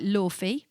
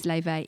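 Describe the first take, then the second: First: Laufey said as LAW-fee; "Laufey" with an f sound and ee ending; spelling-based mispronunciation. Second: Laufey said as LAY-vay; "Laufey" with a v sound, two long ay vowels; correct name pronunciation. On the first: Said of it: "It looks like [name]". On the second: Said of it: "but her name is [name]". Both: Shown as a demonstration.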